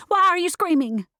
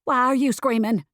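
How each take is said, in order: First: High, loud shriek of a question; screaming. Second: Raised, higher-pitched cat yell; cat still screaming. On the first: Driver to cat, still screaming, high loud shriek. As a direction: shriek it in mid-panic. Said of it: "Still screaming, I said". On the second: Cat throws the question back at driver, yelling. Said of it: "still screaming". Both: A narrator's reading.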